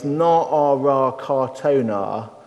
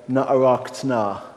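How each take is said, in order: First: The second word is said in full, unhurried. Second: The second word is hurried and squeezed short. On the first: "that's too long" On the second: "you hurry a bit"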